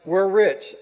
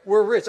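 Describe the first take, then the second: First: Loud stress on "rich", glad; "we're rich" said as good news, loud with a falling "rich". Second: Higher, loud, stress on "we're"; "we're rich" said as bad news, leaning hard on "we're". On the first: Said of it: "And the good news is". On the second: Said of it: "And the bad news is". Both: Shown as a demonstration.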